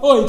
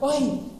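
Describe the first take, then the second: First: The call sounds rude and demanding. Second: The call sounds friendly and eager. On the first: The listener is being ordered about. The speaker calls it wrong. "He's not like, oi, come here and listen to me. It's not like that" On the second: Something exciting is being shared. The speaker calls it right. "And not in a rude way. He's like, oi, listen to this"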